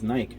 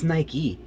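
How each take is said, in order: First: The word ends without a final vowel sound. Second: The word ends with a sounded final vowel.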